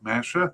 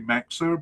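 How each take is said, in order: First: The middle consonant is a 'sh' sound. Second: The middle consonant is a 'ks' sound. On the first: This is how the official announcer said the name. "the announcer in twenty twenty-three pronounced it more like Mesha" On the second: This is how the name used to be said. "I think I used to say Mexer"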